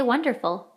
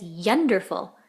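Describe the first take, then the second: First: Said in the usual way. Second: YUNDERFUL, slow, starting with a stressed Y sound; misread with Y. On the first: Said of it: "So this doesn't say wonderful". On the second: Shown as a demonstration. Teacher reading the misspelling as written, yunderful with stressed Y. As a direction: say yunderful with a Y in place of the W. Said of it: "this says yunderful".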